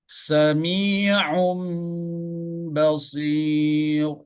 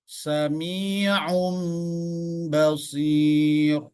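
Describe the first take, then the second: Both takes have the same delivery.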